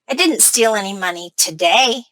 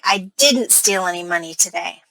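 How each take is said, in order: First: The word today carries the main stress. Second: The word didn't carries the main stress. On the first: The speaker may steal on other days. "My stress is on today" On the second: The speaker is defending against an accusation. "now it sounds like I'm trying to defend myself"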